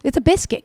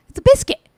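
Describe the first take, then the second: First: Said in the usual way. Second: Shrill-free yelp of disbelief, much higher and louder; exasperated high shout. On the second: Shown as a demonstration. Reacting to the thick cookie, a high exasperated yell.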